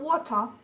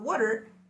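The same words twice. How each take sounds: First: It is said with a British accent. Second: It is said with an Irish accent. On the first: "water in British accent" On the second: "water in Irish accent"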